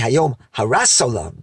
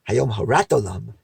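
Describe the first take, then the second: First: Harat ends with an s sound, Ashkenazi style. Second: Harat ends with a t sound, non-Ashkenazi style.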